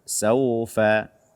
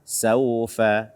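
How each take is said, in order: No difference in how they are said.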